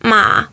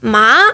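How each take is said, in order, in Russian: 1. Тон опускается низко, а затем поднимается. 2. Тон поднимается от середины к высокому. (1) "лошадь" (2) "это трава"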